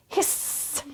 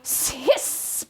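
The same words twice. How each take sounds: First: Softer, unvoiced hissing cat. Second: Soft, unvoiced hissing cat; breathy cat hiss. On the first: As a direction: hiss like a fleeing cat. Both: A narrator's reading. Cat fights on stage.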